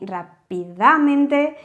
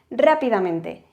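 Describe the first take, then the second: First: The stress falls on a later syllable. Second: The stress falls on the first syllable. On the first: The speaker calls it wrong. "no hacemos ni rápidamente ni rápidamente, de hecho cuesta pronunciarlo" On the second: The speaker calls it right. "Sino que hacemos rápidamente"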